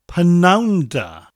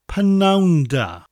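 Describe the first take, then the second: First: The first word is shortened, like 'p-noun'. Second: The same.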